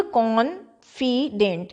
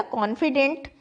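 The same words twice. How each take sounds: First: "confident" slowly as con... fi... dent; split into syllables. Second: Said in the usual way. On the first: Shown as a demonstration. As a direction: break "confident" into three separate syllables. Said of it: "ये syllable कहलाते हैं". ("Confident" को कॉन-फि-डेंट, रुक-रुक कर)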